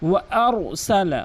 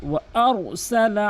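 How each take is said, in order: The two takes are said the same way.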